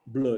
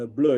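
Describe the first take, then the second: First: "Bleu" said the French way, rounded vowel; "Bleu" with a French vowel for a class. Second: "bleu" said as blo, open o sound; "bleu" as the speaker's home dialect says it; native dialect bleu. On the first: Lecturer sounding out "Bleu" the French way. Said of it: "Bleu in French". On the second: Lecturer giving "bleu" in his native language. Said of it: "in my native language". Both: Shown as a demonstration.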